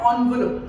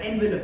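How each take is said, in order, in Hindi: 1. यह 'on' ध्वनि से शुरू होता है। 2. यह 'en' ध्वनि से शुरू होता है। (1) "ऑनवुलप हम ऐसे बोलते हैं ना" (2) "एनवेलप है उसकी स्पेलिंग"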